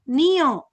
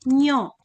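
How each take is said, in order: First: Ni and yo are said as two separate syllables. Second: Ni and yo merge into one syllable, nyo. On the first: Both letters are written full size. "huruf ni dengan yo sama besar, maka dibaca jadi nio" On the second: The second letter is written small. "huruf yo-nya lebih kecil dari huruf ni, maka dibacanya menjadi nyo"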